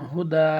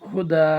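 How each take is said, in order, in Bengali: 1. শব্দটি দীর্ঘ 'a' স্বরধ্বনি দিয়ে শেষ হয়। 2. শব্দটি দীর্ঘ 'a' স্বরধ্বনি দিয়ে শেষ হয়।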